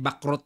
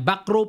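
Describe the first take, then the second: First: The name is said the local Filipino way. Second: The name is said the international way. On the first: This is how people at home say it. "Sa atin kasi back row yan eh" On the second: This is how players abroad say it. "back row po ang tamang bigkas ha, sa international"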